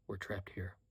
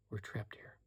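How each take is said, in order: First: Said in the usual way. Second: "We're trapped here" echoed in a soft whisper; mother echoes her son in a whisper; whispered agreement. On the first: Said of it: "she heard the iron control return to him". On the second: A narrator's reading. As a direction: quietly concede the point. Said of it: "she agreed".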